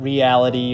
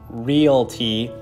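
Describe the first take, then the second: First: The word is said with four syllables. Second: The word is said with three syllables. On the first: The speaker calls it wrong. "not Reality" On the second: The speaker calls it right. "I know it's pronounced Realty"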